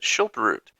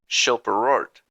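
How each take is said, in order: First: The second R in the name is silent. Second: The second R in the name is sounded. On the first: "There is a second R that we just make silent" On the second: "pronounced Schilperort because of that second R"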